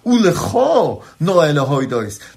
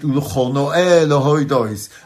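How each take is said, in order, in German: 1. Die Pause kommt nach dem Wort Ulcho. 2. Die Pause kommt nach dem Wort Noe. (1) "Nein, das Poser gehört auf das Ulcho" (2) "nicht wie der Nigen beim Davenen geht, also das Poser auf dem Noe"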